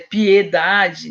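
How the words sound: The first e is said with a closed vowel. This is how people from São Paulo say it. The speaker calls it right. "fechando o é"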